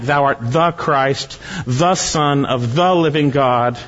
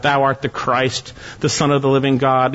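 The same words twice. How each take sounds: First: Slow, with "the" stressed in "the Christ" and "the Son"; emphatic. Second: Said in the usual way. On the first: Shown as a demonstration. Preacher showing the emphatic articles to his listeners, slow and stressed. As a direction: hit each "the" and take it slowly. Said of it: "It's emphatic". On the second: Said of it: "You have a definite article in front of each portion".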